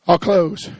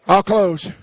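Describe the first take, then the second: No difference in how they are said.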